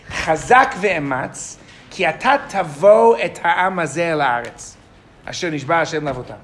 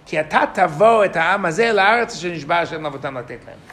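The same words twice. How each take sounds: First: Slow, deliberate reading of the verse, word by word; read slowly. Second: Said in the usual way. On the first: Shown as a demonstration. Teacher reads the verse slowly so students catch the difference. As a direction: take each word slowly so the class hears it. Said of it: "Now I'm gonna read them slowly". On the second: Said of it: "Okay, I'll read it again".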